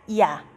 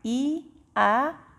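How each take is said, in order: First: Two vowels are said fast, gliding into one. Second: Two vowels are said slowly as separate sounds.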